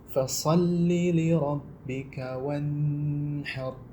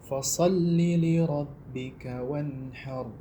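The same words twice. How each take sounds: First: The nasal hum on the n is drawn out. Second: The n is clear with no drawn-out hum. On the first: The speaker calls it wrong. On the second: The speaker calls it right. "Yang benar"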